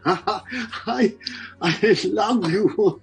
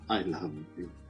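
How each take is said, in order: First: The voice sounds cheerful and warm. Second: The voice sounds sad and low. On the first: "when you're happy" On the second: "when you're sad"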